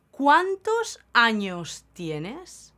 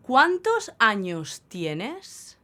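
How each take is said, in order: Both takes have the same delivery.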